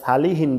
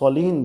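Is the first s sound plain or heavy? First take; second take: plain; heavy. First: The first s is a plain, light s. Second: The first s is a heavy, emphatic s. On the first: The speaker calls it wrong. "এখানে আবার সালিহিন বললেন না, তাহলে কিন্তু সিন হয়ে যাবে।" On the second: The speaker calls it right. "এখানে কিন্তু সলিহিন বলতে হবে।"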